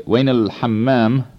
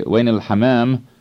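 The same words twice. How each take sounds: First: Al-hammam with the M held long, doubled; double M. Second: Al-hammam with one short M in the middle; single M. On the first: Language instructor showing the word for restroom, double M held long in al-hammam. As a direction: stretch the M in the middle of al-hammam. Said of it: "with the double M". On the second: Language instructor showing the word for pigeon, single short M in al-hammam. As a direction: say al-hammam as ha-maam, the M not doubled. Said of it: "with a single M in the middle". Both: Shown as a demonstration.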